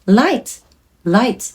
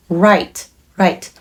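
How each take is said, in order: First: 'light' with a clear L placed forward in the mouth. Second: 'right' with the voice from the back of the throat; throat-placed R in 'right', tongue free. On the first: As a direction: say 'light' with the voice coming from inside the mouth. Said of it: "口の中から声が出てるっていう感覚". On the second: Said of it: "喉の奥から声を出す". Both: Shown as a demonstration.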